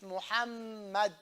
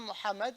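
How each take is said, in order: First: The middle m is doubled and held. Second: The middle m is said once, not doubled. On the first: The speaker calls it right. "with a shadda on the meme" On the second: The speaker calls it wrong. "It's not Muhammad"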